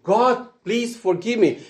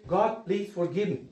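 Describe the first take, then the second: First: Higher, pleading call to God; earnest plea. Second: A quiet, humble plea to God; soft prayer. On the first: Preacher repeating the plea higher and more earnestly. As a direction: lift the voice and plead it. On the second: Preacher showing the congregation a soft plea for forgiveness. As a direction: say it softly, as a simple first prayer. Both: Shown as a demonstration. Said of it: "you just need to say".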